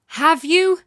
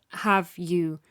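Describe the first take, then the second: First: "Have you?" with you pushed up and louder; "Have you?" demanding, landing on "you"; stress on you. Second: Said in the usual way. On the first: Shown as a demonstration. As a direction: lean hard into "you". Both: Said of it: "retake of the same line".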